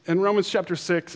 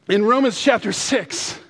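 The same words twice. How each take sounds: First: Said in the usual way. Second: Higher, raised announcing voice; sudden emphatic burst; emphatic self-correction. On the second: Real, not acted. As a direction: call out the corrected reference. Corrects himself after naming John.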